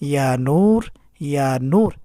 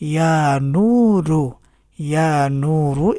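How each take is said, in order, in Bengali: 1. শব্দটি r ব্যঞ্জনে শেষ হয়েছে। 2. শব্দটি চূড়ান্ত u স্বরধ্বনি দিয়ে শেষ হয়েছে। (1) "অথবা এভাবেও পড়তে পারেন" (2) "এভাবেও পড়তে পারেন"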